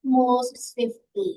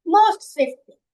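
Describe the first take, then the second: First: "Most swiftly" very slow and much lower; drawn-out answer. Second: "most swiftly" said louder, punching "most"; emphatic answer. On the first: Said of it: "आप क्या कहोगे?". ("Most swiftly" को बहुत धीमे, नीची आवाज़ में खींचकर) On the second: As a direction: stress "most" hard, like the right answer. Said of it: "more swiftly". ("most" पर ज़ोर देकर, ऊँची आवाज़ में) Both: Shown as a demonstration.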